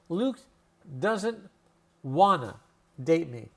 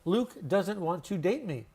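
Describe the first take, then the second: First: The words 'want to' blend into 'wanna'. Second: The words 'want to' are said fully.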